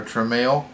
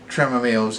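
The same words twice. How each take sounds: First: "Tramiel" in two syllables, truh-MAIL; corrected name attempt. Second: "Tramielle's" with an extra syllable, TRAM-uh-mail's; unsure name pronunciation. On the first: Reviewer second-guesses the actor's surname, two-syllable "Tramiel". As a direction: say "Tramiel" shorter, rising on "mail". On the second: Reviewer tries the actor's surname, extra-syllable "Tramielle's". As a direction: say "Tramielle's" in three syllables, with an added "muh". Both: Shown as a demonstration. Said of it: "Is that how you say it?".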